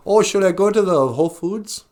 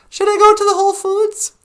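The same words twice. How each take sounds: First: Higher-pitched light impression, questioning lilt; a mild first go at imitating her; Natasha. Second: Very high, loud squeaky mock voice; hammed-up impersonation, pitched way up; Natasha. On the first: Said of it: "Although it sounded more like this". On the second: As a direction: squeal it in an exaggerated falsetto imitation. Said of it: "I do a really good Natasha impersonation".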